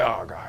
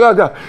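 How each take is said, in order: First: Weary groan. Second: Said in the usual way. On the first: Retold or imitated. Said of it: "And you're like". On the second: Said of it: "you're like".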